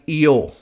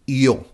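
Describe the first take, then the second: First: It begins with a soft English Y sound. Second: The same.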